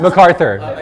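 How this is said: It is said in an American accent.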